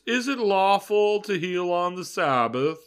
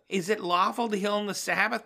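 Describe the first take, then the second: First: It is said in a big snobby voice. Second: It is said in his normal voice.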